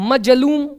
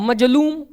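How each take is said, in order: No difference in how they are said.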